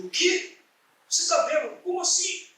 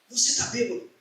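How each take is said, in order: First: Espanto encenado, voz bem aguda; incrédulo. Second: Said in the usual way. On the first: Retold or imitated. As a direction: repita a acusação como pergunta aguda e espantada. Incrédulo com o que o amigo diz. (incrédulo, com voz aguda)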